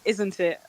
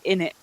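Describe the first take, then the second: First: Both words are fully pronounced, with the t. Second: The words are squeezed together as 'in it'. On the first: This is the ordinary, standard form. "we would say it isn't it" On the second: This is very casual slang. "if we were talking really slang, then we would just say in it"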